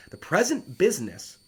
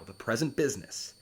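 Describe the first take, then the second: First: "The present business" lifted higher and louder, "present" hit hard; stress on present business. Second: Said in the usual way. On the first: Shown as a demonstration. Teacher stressing a key phrase for the class, "present" punched.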